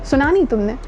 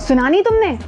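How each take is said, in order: First: The voice sounds plain and neutral. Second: The voice sounds angry and harsh. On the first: "बहुत normal" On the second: "गुस्से में बोले"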